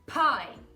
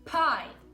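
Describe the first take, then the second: The two takes are said the same way.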